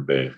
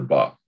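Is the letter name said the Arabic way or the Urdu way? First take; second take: Urdu; Arabic. First: The letter name is said the Urdu way. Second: The letter name is said the Arabic way.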